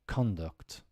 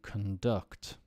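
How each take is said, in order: First: The stress is on the first syllable. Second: The stress is on the second syllable. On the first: It is used as a noun. "And then as a noun" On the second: It is used as a verb. "So let's do the verb"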